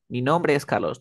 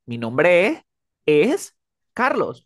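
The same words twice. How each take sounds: First: Said in the usual way. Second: "Mi nombre es Carlos" broken up, NOMBRE and ES high and drawn out; exaggerated word stress. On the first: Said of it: "hablamos plano". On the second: Shown as a demonstration. Teacher shows how Spanish isn't spoken, exaggerated stress on "Mi nombre es Carlos". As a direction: overstress each chunk of "Mi nombre es Carlos", louder, with pauses. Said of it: "Tú no dices".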